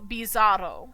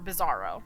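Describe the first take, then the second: First: It is said with a Spanish accent. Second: It is said with an English accent.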